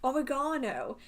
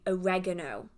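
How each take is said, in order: First: The word is said with the British pronunciation. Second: The word is said with the American pronunciation. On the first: The speaker calls it right. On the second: The speaker calls it wrong.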